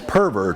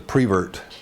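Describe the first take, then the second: First: The first syllable sounds like 'per'. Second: The first syllable sounds like 'pre'. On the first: The speaker calls it right. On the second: The speaker calls it wrong.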